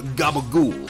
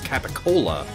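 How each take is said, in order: First: It is said as gabagool, starting with g. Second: It is said as capicola, starting with k. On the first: "often pronounced in like The Sopranos as" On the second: "when written, be pronounced as capicola"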